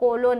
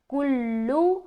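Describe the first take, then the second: First: Both vowels are 'o' with a single l. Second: Both vowels are 'u' with a doubled l. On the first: The speaker calls it wrong. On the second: The speaker calls it right.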